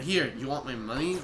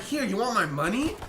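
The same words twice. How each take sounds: First: Said in the usual way. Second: Higher, showy challenge with a rising end; hammed-up retort; exaggerated challenge. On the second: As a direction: overplay the offer of money. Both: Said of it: "I didn't say it like that".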